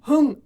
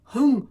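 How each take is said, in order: Both takes have the same delivery.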